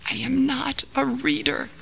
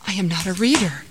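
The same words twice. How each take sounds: First: High, thin half-whisper. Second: Mildly startled reply; a touch of alarm; startled gasp. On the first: Frightened man answers the mysterious voice, whispered. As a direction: whisper it fearfully, pitched up. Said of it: "whispered the man". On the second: Startled man answers the voice in the cave, gasped. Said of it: "The startled man gasped". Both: Acted.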